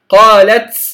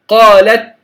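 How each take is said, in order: First: The final t ends with an s-like hiss. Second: The final t ends with a light breath. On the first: The speaker calls it wrong. "لا أقول قالت قالت، خطأ" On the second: The speaker calls it right. "لما نقول على سبيل المثال قالت"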